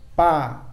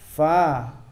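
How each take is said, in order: First: The first sound is made with both lips. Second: The first sound uses lower lip and upper teeth. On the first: The speaker calls it wrong. "kadang-kadang dibaca dengan pa. Kalau pa itu bibir bawah bertemu bibir atas, itu salah" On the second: The speaker calls it right. "Yang benar adalah perut bibir bawah bertemu ujung gigi atas"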